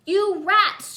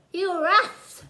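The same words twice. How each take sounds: First: High loud angry holler. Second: "rats" said with a lisp through the gap, like "yeth"; lisped through missing teeth. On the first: Girl with missing teeth yells at the two boys. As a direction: yell it at the boys. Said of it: "she hollered". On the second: Girl without front teeth shouts, lisping the word "rats". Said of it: "sounded more like". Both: A narrator's reading.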